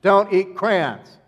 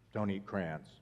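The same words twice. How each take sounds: First: It is said in a light, casual voice. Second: It is said in a stern, serious voice.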